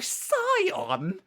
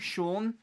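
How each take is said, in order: First: The name begins with a plain s sound. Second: The name begins with an sh sound. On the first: The speaker calls it wrong. "that's blatantly not how you say the fucking word" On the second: The speaker calls it right. "Literally shun"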